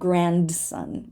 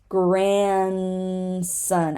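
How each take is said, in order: First: The D sound is pronounced. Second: The D sound is dropped. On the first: The speaker calls it wrong. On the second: The speaker calls it right.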